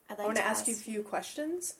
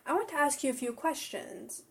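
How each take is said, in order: First: The voice rises at the end. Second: The voice does not rise at the end. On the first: "make myself have a rising tone" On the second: "I can't even do it"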